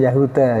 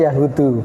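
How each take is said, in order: First: The word ends with an 'a' vowel. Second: The word ends with an 'u' vowel. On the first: The speaker calls it wrong. "bukan yahuda" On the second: The speaker calls it right. "kalau ini yahudu"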